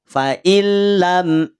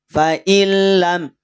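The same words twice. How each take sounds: Both takes have the same delivery.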